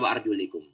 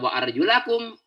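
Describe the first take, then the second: First: The vowel after 'arjul' is an 'i' sound. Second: The vowel after 'arjul' is an 'a' sound. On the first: The feet are to be wiped. "ada yang baca wa'arjulikum dengan kaki ... diusap" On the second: The feet are to be washed. "Bagi yang membaca wa'arjulakum berarti memang dibasuh"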